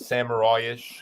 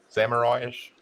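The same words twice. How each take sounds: First: The word is said in an Australian accent. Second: The word is said in his ordinary accent.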